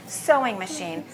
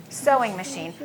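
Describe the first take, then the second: Both takes have the same delivery.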